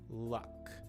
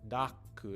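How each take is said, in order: First: It has a short, flat, neutral schwa vowel. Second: It has a full vowel and an added final vowel. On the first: The speaker calls it right. "what we call schwa sound" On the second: The speaker calls it wrong. "It's not daku"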